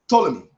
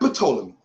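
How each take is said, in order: First: The word begins with a silent P. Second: The word begins with a sounded P. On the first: The speaker calls it right. "The P is silent" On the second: The speaker calls it wrong. "Not Pta. Not Ptolemy"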